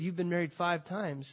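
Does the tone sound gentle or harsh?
gentle. The tone sounds gentle and caring. The words tell a hard truth with kindness. The speaker calls it right. "I think he said, ... He was telling her the truth in love"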